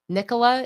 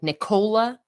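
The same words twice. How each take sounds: First: The name is said without sounding like Nicole. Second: The name is said to sound like Nicole. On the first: "that's how I automatically pronounce that" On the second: "I get that people like think Nicole, so like Nicola"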